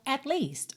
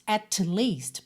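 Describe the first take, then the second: First: The tongue stays in place from T to L. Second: The tongue taps off for the T separately. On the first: The speaker calls it right. "a língua não sai da boca do T" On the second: The speaker calls it wrong. "eu teria que quicar a língua no céu da boca, não faz sentido"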